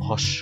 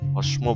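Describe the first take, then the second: First: The m sound is dropped entirely. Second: The m sound is clearly pronounced. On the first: The speaker calls it right. "উচ্চারণ কিন্তু ভস্য" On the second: The speaker calls it wrong. "কেউ আবার ভস্ম বলবেন না"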